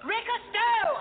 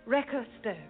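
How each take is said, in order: First: It is said very loudly. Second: It is said at a normal, quiet volume.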